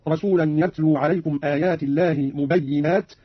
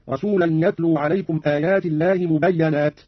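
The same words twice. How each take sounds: First: Said in the usual way. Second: مبينات said "mubayyanāt"; fatha on doubled ya. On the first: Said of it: "قرأ قانون بفتح الياء". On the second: Shown as a demonstration. Teacher demonstrating Qalun, مبينات as "mubayyanāt". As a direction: open مبينات to a after the doubled y. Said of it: "بفتح الياء مشددة".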